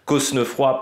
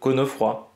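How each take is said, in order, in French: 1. Le son « s » se prononce dans le nom. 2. Le son « s » ne se prononce pas dans le nom.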